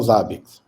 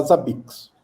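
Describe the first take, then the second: First: "Zabbix" stressed on the first syllable, ZA-biks; Russian developers' pronunciation. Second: "Zabbix" stressed on the last syllable, za-BIKS; speaker's usual pronunciation. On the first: Guest shows how the developers say it, "Zabbix" as ZA-biks. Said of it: "eles falam Zabbix". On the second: Guest gives own habit, "Zabbix" as za-BIKS. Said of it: "eu costumo falar Zabbix". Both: Shown as a demonstration.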